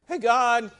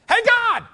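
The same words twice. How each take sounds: First: It is said at normal volume. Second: It is said loudly.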